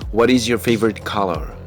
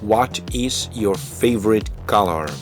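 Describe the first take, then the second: First: It is said fast and contracted. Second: It is said slowly and fully.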